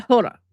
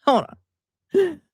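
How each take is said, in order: First: Said in the usual way. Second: Hold, then a pause, then on; hold and on split apart. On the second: Shown as a demonstration. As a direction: break the phrase "Hold" ... "on" in two. Repeating hold on, drawn out.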